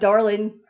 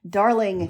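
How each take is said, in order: First: The word ends with an n sound. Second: The word ends with an ng sound. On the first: The speaker calls it wrong. "Not Darlin" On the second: The speaker calls it right.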